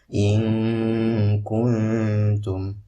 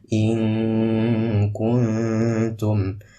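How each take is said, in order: The two takes are said the same way.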